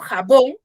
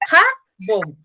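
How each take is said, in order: First: The stress is on the second syllable. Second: The stress is on the first syllable. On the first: The speaker calls it right. "yo digo jabón" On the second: The speaker calls it wrong. "más no digo jabón"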